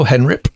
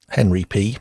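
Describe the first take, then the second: First: The name is run together as one word. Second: The name is said as two separate parts. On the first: The speaker calls it wrong. "My text-to-speech pronounced it as Henrip" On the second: The speaker calls it right. "Henry P, more likely"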